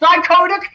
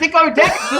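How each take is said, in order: First: The word is said as dichotic. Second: The word is said as dicodeck. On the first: The speaker calls it right. "not Alan from Dicodeck" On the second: The speaker calls it wrong. "it's not dicodeck"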